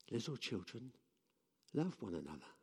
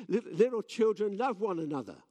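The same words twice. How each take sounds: First: Softer, gentle and spent; soft, frail. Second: Higher and louder, pushing the words out; louder for the crowd. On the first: Old John says it again, tired and soft. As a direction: let it sink almost to nothing. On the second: Old John repeats to the crowd, louder. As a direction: raise your voice so the back can hear. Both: Retold or imitated.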